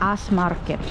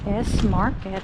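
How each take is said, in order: First: The letter S is said like 'ass'. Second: The letter S is said like English 'ess'. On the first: The speaker calls it right. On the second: The speaker calls it wrong.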